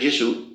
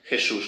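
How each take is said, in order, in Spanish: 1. Empieza con una consonante suave. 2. Empieza con una fricativa áspera y gutural. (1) "en italiano Jesús, como sabemos, es Jesús" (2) "esta J nuestra eh, fricativa es nada más que española"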